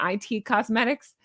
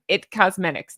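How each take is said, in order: First: "I T Cosmetics" with I and T as two letters; spelled-out I T. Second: "It Cosmetics" with It said as one word. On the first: Host admits her mistaken brand name, "I T" spelled as letters. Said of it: "I kept calling it". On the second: Host gives the brand's real name, "It" as one word. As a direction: say "It" as a single syllable in "It Cosmetics". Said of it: "It's It Cosmetics". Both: Shown as a demonstration.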